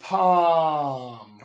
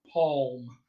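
First: "Palm." with open "ah" and silent L; palm without L. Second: "palm," with the L sounded. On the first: Coach showing the example word, L-less "Palm.". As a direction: draw out the "ah" in "Palm.", leaving out the L. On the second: Coach showing a variant, L pronounced in "palm,". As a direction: say "palm," with an audible L that changes the vowel. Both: Shown as a demonstration. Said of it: "you may pronounce this L".

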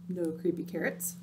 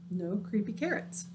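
Both takes have the same delivery.

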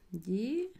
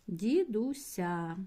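First: Said in the usual way. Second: "Дідуся" stretched very slowly; teacher dictating slowly while writing; slow dictation. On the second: Shown as a demonstration. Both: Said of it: "Записую".

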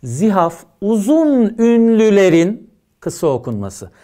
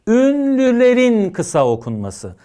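First: "uzun" stressed, read slowly; slow dictation for students; slow emphatic definition. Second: "Ünlülerin" stressed, slowly repeated; teacher repeating the key phrase slowly; slow repeated emphasis. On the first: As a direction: dictate "Zihaf uzun ünlülerin kısa okunması" slowly, leaning on "uzun". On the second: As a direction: repeat "Ünlülerin kısa okunması" slowly, leaning on "Ünlülerin". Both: Shown as a demonstration. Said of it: "Tanım çok önemli".

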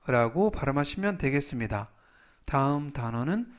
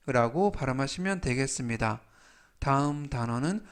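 Both takes have the same delivery.

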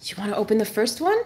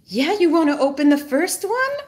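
First: Said in the usual way. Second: Coaxing dog voice. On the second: Real, not acted. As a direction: lift the pitch like coaxing a pet.

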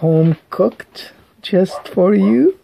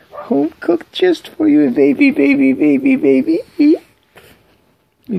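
First: Said in the usual way. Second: Squeaky singsong for a pet; high-pitched baby talk. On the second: Acted. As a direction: coo it way up high. Repeated phrase, high take.

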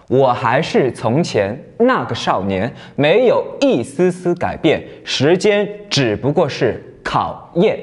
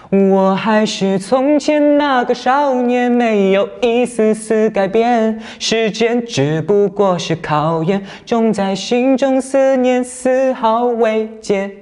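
First: 慢慢念，画横线的字加重; 先把歌词念清楚，突出重音字; 念歌词强调重音. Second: Sung, 慢而高的有力演唱; sung, 唱出少年的蓬勃朝气; sung, 唱出来. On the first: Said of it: "我们可以首先呢来读一遍". (放慢朗读，重音字要加重) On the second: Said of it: "再唱出来". (sung, 把歌词高声慢慢唱出来) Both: Shown as a demonstration.

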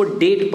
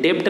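First: डेट as "det", no b; correct debt, silent b. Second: डेप्ट as "dept"; wrong debt, b sounded. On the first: Teacher models the word for pupils, डेट as "det". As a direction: drop the b in डेट. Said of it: "इसको डेट पढ़ते हैं". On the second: Teacher shows the mistake, डेप्ट as "dept". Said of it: "नहीं पढ़ते हैं". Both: Shown as a demonstration.

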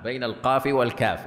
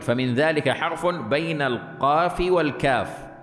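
First: Said in the usual way. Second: Slow, lifted recital of the book's words; slow raised quote. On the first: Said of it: "ها؟". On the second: Shown as a demonstration. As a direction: read بين القاف والكاف slowly and a bit higher. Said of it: "قال ابن دريد".

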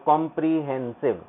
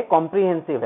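First: "कॉम्प्रिहेंसिव" in separate syllables; word broken into syllables. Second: Said in the usual way. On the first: Shown as a demonstration. Teacher repeats the term for the children, syllable by syllable. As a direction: sound out "कॉम्प्रिहेंसिव" piece by piece. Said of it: "कॉम्प्रिहेंसिव है बच्चों".

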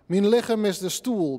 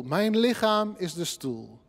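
First: "Mijn lichaam" in Frisian, with "Mijn" said as "min". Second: Said in the usual way. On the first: Shown as a demonstration. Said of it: "die muziek van het Fries te laten horen". (Friese uitspraak van "Mijn" als "mien") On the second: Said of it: "Ik lees nu de vertaling tussendoor".

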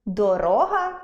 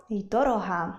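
First: Дорога as доРОга; дорога with middle-syllable stress; stress shift. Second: Дорога as дороГА; дорога with final-syllable stress; stress shift. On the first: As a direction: stretch and raise РО in дорога. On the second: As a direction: lean on ГА in дорога. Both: Shown as a demonstration. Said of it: "зміна наголосу змінює значення слова".

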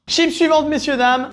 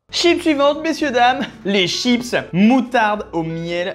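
First: High, loud host announcement; showman announcement. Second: Showman announcement. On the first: Announcing next chips, high and loud. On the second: Announcing next chips again. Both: Acted. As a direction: present it like a game show host.

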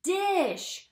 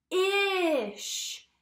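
First: Said in the usual way. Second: D-ish split into d and ish, said slowly; segmenting D-ish for young learners; tapping out sounds. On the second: Shown as a demonstration. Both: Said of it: "Let's tap it out together".

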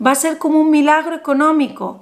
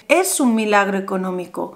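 First: Said in the usual way. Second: "Es" hit first and firm, the rest lower; stress on ES. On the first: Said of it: "No, es que no es como". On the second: Shown as a demonstration. Host to viewer, correcting herself with a firm stress on "Es". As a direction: insist on the word "Es". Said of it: "no es como, es".

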